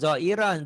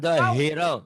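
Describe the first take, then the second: First: The h sound in the middle is dropped. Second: A clear h sound is heard in the middle. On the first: The speaker calls it wrong. "jangan zoiron" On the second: The speaker calls it right. "ha gede ya"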